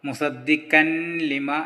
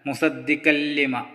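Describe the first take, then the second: First: The n is pronounced before the l. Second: The n merges fully into a doubled l. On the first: The speaker calls it wrong. "മുസദ്ദിഖൻ ലിമ എന്നല്ല" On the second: The speaker calls it right. "നൂനിനെ പൂർണ്ണമായും ഒഴിവാക്കി മണിക്കാതെ ചേർത്തി ഓതണം"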